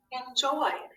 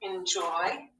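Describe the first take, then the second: First: "enjoyed" with the -ed ending pointed out; teacher modeling "enjoyed" so the ending is heard; stress on the suffix. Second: Said in the usual way. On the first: Shown as a demonstration. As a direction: lean on the d of "enjoyed" to show the added suffix. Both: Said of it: "I just add the suffix".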